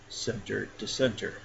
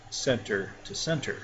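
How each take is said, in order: Both takes have the same delivery.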